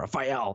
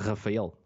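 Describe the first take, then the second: First: The name is said harshly with an American accent. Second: The name is said with a Portuguese accent. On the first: This is how relatives in New York say it. "they have this pronunciation that's really harsh of my name" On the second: This is how it is said in Portuguese. "in Portuguese, it's not that different"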